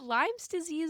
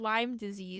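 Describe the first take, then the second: First: There is an s sound after Lyme. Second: There is no s sound after Lyme. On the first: The speaker calls it wrong. "I've been saying it wrong my entire life" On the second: The speaker calls it right.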